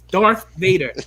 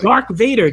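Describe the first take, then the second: First: The first word ends with a th sound. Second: The first word ends with a k sound. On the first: The speaker calls it right. "It's Darth Vader" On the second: The speaker calls it wrong. "they're still calling him Dark... D A R K"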